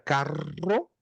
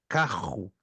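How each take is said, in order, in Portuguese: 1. Fala-se com sotaque do sul do Brasil. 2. Fala-se com sotaque carioca. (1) "Já no Rio Grande do Sul, não se pronuncia assim, se pronuncia carro" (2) "no Rio de Janeiro, por exemplo, se pronuncia carro"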